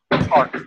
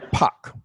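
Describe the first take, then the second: First: Said in the usual way. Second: Park said as pahk, R dropped; Park with a long ah and no R, Boston style; Boston r-less Park. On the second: Shown as a demonstration. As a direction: let the R vanish in Park. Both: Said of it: "the R's disappear".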